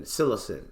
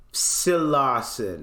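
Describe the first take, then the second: First: Said in the usual way. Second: Psilocin sounded out slowly, syllable by syllable; carefully sounding out psilocin; slow careful pronunciation. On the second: Shown as a demonstration. Streamer reads psilocin aloud to chat, slowly.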